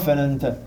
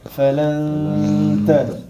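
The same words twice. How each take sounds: First: The nasal n sound is cut short. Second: The nasal n sound is held for two beats. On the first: The speaker calls it wrong. "On ne dit pas falanta" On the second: The speaker calls it right. "il faut le prolonger"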